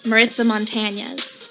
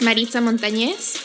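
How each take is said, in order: First: The name is said with English sounds. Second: The name is said with Spanish sounds. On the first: This is an easier version for English speakers. "And that's the English" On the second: This is the name's original pronunciation. "If you want to say my name correctly"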